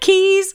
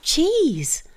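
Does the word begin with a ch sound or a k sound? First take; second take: k sound; ch sound. First: The word begins with a k sound. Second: The word begins with a ch sound. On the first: "What if it was a silent H in the others?" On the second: "they all start with ch"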